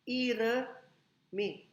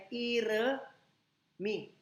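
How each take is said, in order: No difference in how they are said.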